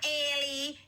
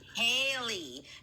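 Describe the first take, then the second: First: The name begins without an H sound. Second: The name begins with an H sound. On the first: The speaker calls it wrong. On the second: The speaker calls it right. "It's an H"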